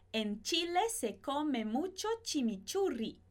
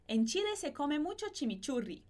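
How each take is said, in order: First: The sentence is spoken at a slower pace. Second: The sentence is spoken at a faster pace.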